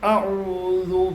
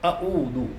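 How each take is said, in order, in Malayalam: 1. ആ വ്യഞ്ജനത്തിന് തൊണ്ടയിൽ നിന്നുള്ള ഐൻ ഉപയോഗിക്കുന്നു. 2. തൊണ്ടയിലെ വ്യഞ്ജനത്തിന് പകരം ലളിതമായ ഹംസ വരുന്നു. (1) "അപ്പോൾ എങ്ങനെ ഓതണം?" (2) "അവിടെ ഹംസ ഓർക്കും"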